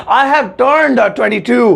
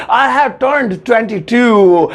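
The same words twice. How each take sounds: The two takes are said the same way.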